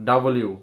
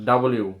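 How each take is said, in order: The two takes are said the same way.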